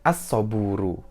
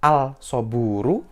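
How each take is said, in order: First: The L merges into a doubled S sound. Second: The L sound is pronounced before the S. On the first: The speaker calls it right. "harusnya dibaca as-soburu" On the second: The speaker calls it wrong. "Kalau ada yang baca al-soburu, maka itu salah"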